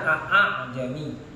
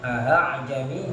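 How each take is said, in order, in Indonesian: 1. Hamzah kedua diucapkan penuh. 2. Hamzah kedua dilunakkan dan dibuat ringan. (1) "Asalnya a'jami" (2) "hamzah yang kedua dibaca ringan"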